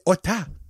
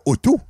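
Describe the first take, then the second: First: The second syllable has an open 'ah' vowel. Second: The second syllable has a rounded 'oh' vowel. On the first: The speaker calls it right. "c'est Otta" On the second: The speaker calls it wrong. "C'est pas Otto"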